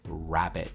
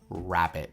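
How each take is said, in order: Both takes have the same delivery.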